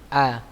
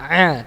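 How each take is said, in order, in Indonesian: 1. Vokal dimulai jauh di dalam tenggorokan bagian bawah. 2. Vokal dibuat lebih ke depan di mulut. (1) "A-nya tenggorokan bawah ya. Hamzah atau alif" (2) "jangan a"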